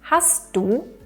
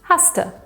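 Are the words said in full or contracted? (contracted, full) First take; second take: full; contracted. First: The two words are said separately in full. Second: The two words are merged into one contracted word. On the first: "anstatt hast du" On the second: "Wir sagen dann"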